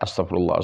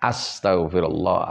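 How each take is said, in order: First: It is quick, but every letter stays clear. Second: It is slow, with every letter fully articulated. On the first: "jadi hadir itu cepat tapi tidak mengurangi ya, bacaan tersebut" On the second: "Jadi harus tartil dari alifnya"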